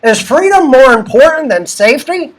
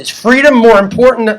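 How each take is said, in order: First: It is said in a put-on imitating voice. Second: It is said in the speaker's normal voice.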